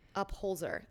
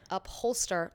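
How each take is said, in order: First: The name ends with a z sound, holzer. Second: The name ends like the word holster. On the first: The speaker calls it right. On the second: The speaker calls it wrong.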